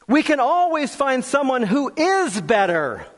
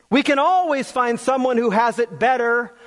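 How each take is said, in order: First: "is" punched higher before "better"; stress on IS. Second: Said in the usual way. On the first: Real, not acted. Preacher contrasts being better with having it better, stress on "is". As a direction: lean hard on the word "is".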